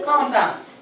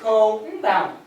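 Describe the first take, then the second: First: The first part blends in and is hard to hear. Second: The first part is a clearly separated 'co'. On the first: "you don't hear the co part" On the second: "I will pronounce it that way"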